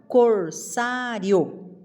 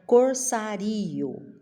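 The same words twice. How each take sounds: First: The ending -rio is said as one syllable. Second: The ending -rio is split into two syllables. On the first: The speaker calls it right. "eu falo corsário" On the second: The speaker calls it wrong. "Se eu separar o rio, vai ficar corsário"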